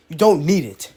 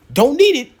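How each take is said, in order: First: Said in the usual way. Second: "Don't need it" higher and louder, stress on "need"; emphatic repeat. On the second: Real, not acted.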